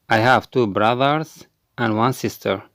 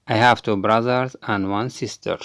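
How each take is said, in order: Both takes have the same delivery.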